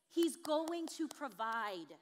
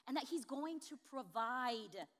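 First: Very slow and louder, each word of He's going to provide weighted; a drawn-out, emphatic promise; slow, weighty repeat. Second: Said calmly and a little slow; measured, even assurance; steady statement. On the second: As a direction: state the promise simply. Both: Shown as a demonstration.

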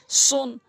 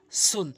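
First: সুন with round mouth and dark s; heavy s in সুন. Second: সুন with a thin, light s; light s in সুন, mouth less round; spread light s. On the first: Teacher drills two letters, heavy round সুন. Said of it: "সৎটি মুখ গোলাকার হবে". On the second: Teacher drills two letters, light সুন. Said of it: "সিনটি মুখ ওসার হবে". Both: Shown as a demonstration.

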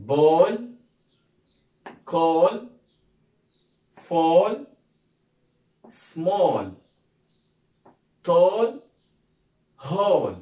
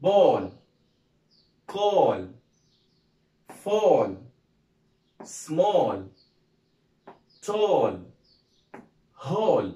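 First: Ball, call, fall, small, tall, hole said loud, mostly with a rising tune; first drill round said loud with rising ends; loud rising classroom drill; repeat-after-me drill. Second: Ball, call, fall, small, tall, hole each with a falling tune; second drill round with falling ends; falling classroom drill; repeat-after-me drill. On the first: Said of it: "نقول تاني كده بقى مع بعض". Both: Shown as a demonstration.

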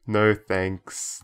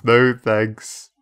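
First: Said in the usual way. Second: Emphatic no thanks. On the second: Shown as a demonstration. Repeats the option emphatically.

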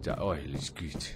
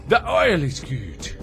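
First: Low, soft, slow repeat; silly low echo. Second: Louder, higher, slow and stretched; silly high declaration. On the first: Player repeating that they like oil, silly low echo. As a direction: drop it down low and quiet, drawn out. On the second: Player who likes oil, silly high declaration. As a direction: draw it out loudly in a playful high voice. Playful repeat about liking oil. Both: Pretend.

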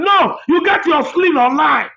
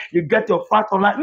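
First: Scornful correction, leaning on sling; corrected retort. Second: Fact said on a rising, sing-song tune; mock-repeating the excuse, fact rising; mocking their line. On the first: Shown as a demonstration. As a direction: correct them, hitting the word sling. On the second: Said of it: "Later you come out and say".

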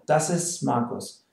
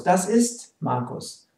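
First: "ist" said as "is" before "Markus"; silent T in ist. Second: "ist" slowly, with the final T audible; T sounded in ist. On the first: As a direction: leave the T off "ist". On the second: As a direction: say "Das ist" with a clear T in "ist". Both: Shown as a demonstration. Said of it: "usually we don't pronounce the T".

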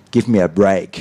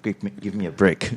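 First: Learner's corrected "ay" in BREAK; corrected pronunciation. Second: BRICK with a short "ih" where break is meant; softer, learner's slip into BRICK; mistaken pronunciation. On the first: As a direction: BREAK with a full, long "ay". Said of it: "I should say something like". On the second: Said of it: "instead of". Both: Shown as a demonstration.

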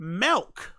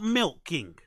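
First: "Milk" said as "melk", lifting at the end; mispronounced milk. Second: Said in the usual way. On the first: Shown as a demonstration. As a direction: make "Milk" rhyme with elk. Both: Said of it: "Not milking".

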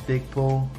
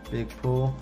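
Both takes have the same delivery.

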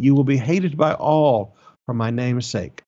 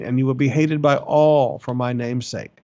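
First: Said in the usual way. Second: All hit and held with a falling tune; stress on all. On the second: Shown as a demonstration. Preacher reading scripture, stressing all. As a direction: lean hard on the word all. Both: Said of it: "emphasis on the word all".

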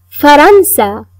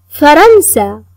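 No difference in how they are said.

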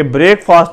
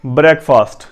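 First: بریک فاسٹ as "brayk-faast"; long vowels in بریک فاسٹ; wrong pronunciation demonstrated. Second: بریک فاسٹ as "brek-fust"; short vowels in both halves of بریک فاسٹ; corrected pronunciation. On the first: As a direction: say بریک like to break. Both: Shown as a demonstration. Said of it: "بریک فاسٹ نہیں ہے".

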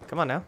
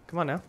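Both takes have the same delivery.

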